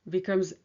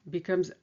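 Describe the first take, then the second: The two takes are said the same way.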